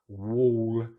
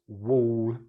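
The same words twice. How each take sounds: First: A long rounded or vowel. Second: The same.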